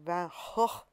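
The name is said in a Dutch way. "I think in his native Dutch, it's more like Van Gogh"

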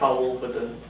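The voice falls at the end, like a statement.

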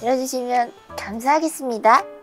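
It is said in a cute, adorable manner.

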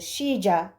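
The middle consonant sounds close to sh. This is how it is said in South America. "Güney Amerika'da da daha çok ŞC arası"

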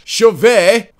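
The name is said with a French pronunciation.

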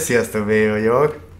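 It is said with a small smile.

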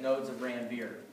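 Ranvier is said with an American pronunciation.

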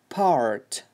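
The r after the vowel is clearly pronounced. "American Englishda yana part, part raga urg'u beradi"

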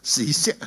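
The word is pronounced with Cantonese sounds. "广东话史色"

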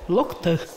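The word ends in an 'a' vowel. This is the literary Komi form. "на литературном «локта» говорят"

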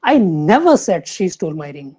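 The stress falls on the word never. It was never said at all. "Second"

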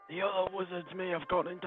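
It is read in a put-on wizard voice. The speaker calls it right.

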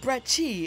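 The name is said with an Italian accent.

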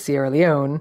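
The name is said with English pronunciation. "but we say Sierra Leone"

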